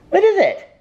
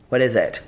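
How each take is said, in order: First: Very high, louder sing-song question; baby talk to the dog. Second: Said in the usual way. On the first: Acted. Owner asking her dog what he wants, in high baby talk. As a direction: coo up high at the puppy.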